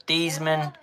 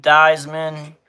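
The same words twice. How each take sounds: First: Theismann said as "TEEZ-men" with an ee sound; corrected name. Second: Theismann said as "THIGH-zmen" with a long i; first try at the name. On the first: Dad reading the draft board corrects his Theismann, quieter. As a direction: Theismann fixed to a short "tee" start. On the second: Dad reading the draft board tries the name Theismann. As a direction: Theismann starting with the "eye" sound. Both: Shown as a demonstration.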